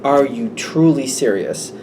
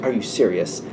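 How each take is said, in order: First: "truly" drawn out in slow disbelief; stress on truly. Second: Low, soft mock disbelief; disbelieving. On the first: Retold or imitated. Worried friend to the flippant one, slow stress on "truly". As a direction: lean slowly on the word "truly". Same question repeated with emphasis. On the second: Worried friend to the flippant one, quietly disbelieving. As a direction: question them under your breath, deadpan.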